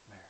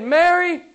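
First: Very soft, barely voiced "Mary"; hushed name-calling. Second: High, ringing "Mary" at full volume; loud proclaimed name. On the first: Jesus calling Mary by name, hushed. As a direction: call the name gently, almost under the breath. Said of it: "you've heard him speak your name like this". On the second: Acted. Preacher retelling Jesus calling Mary, loud proclamation. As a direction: fling the name out at the climax.

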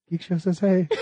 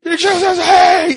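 First: Softer, laughing imitation of a greeting; retold distant greeting. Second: High, loud, slow holler; loud imitated greeting. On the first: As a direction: imitate a listener's greeting heard from behind, softly. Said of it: "I just hear". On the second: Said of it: "It's loud".

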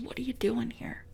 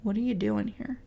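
First: A breathed, whispered question. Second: Soft voice. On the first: The little voice inside speaks to the depressed, whispering. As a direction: whisper it close and intimate. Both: Shown as a demonstration. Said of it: "That little voice that says".

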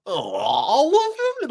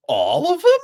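First: Higher, slow, hammed-up disbelief; over-the-top slow mock astonishment; even more ridiculous. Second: High, loud, hammed-up astonishment; ridiculous mock-shocked shout; over-the-top comical. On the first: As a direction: stretch it out, cartoonishly shocked. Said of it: "even more ridiculous than the first time". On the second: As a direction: ham up the disbelief like a cartoon. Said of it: "really ridiculous, over the top sort of, like, comical way".

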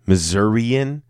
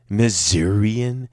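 First: Missourian said muh-ZUR-ee-un; standard Missourian pronunciation. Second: Missourian said slowly as miz-EER-ee-un; punning Missourian pronunciation. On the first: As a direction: try Missourian with stress on ZUR. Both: Shown as a demonstration. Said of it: "that's us in misery".

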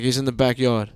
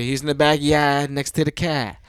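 First: Said in the usual way. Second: Boston "backyard" and "car", broad vowels, no R's; Boston accent. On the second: Retold or imitated. Jaws husband corrected by wife, Boston accent on "backyard" and "car". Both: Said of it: "No, that's not how you say it".

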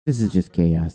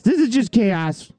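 First: Said in the usual way. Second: Higher, slow, stretched-out despair; exasperated drawl. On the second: Acted. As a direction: drag it out in mock despair. Repeats line, second drawn out.

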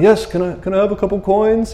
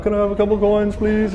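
First: Higher, meek beggar asking for coins. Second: Higher, meek beggar pleading please; a timid, pitched-up beggar asking softly. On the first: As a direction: play a timid beggar pleading, pitched up. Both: Retold or imitated. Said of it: "I don't know if he talked like that".

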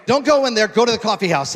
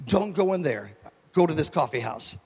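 First: Higher and louder, pressing the order; retelling the Spirit's instruction with full preaching force; loud urgent command. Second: Said in the usual way. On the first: Retold or imitated. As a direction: proclaim it like a divine command. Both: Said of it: "The Holy Spirit told me".

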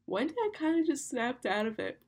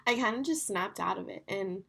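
First: Higher, stretched words through a real yawn. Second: Said in the usual way. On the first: Real, not acted. Host telling her listeners the story while yawning. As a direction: say it mid-yawn. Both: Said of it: "Sorry, I'm literally yawning".

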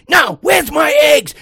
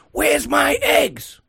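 First: High, slow imitated shout, much louder; losing it. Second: High, drawn-out mock outrage; losing it. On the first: Older customer shouting down the cashier, losing it. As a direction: bellow it like an outraged customer. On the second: Older customer to young cashier, losing it. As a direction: imitate an indignant customer demanding an answer. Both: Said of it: "he loses it on this girl".

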